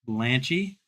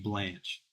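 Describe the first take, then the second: First: The name ends with an added ee sound. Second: The name ends without any final vowel sound. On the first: The speaker calls it wrong. "That's not really how you say it" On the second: The speaker calls it right. "That's got to be Blanche"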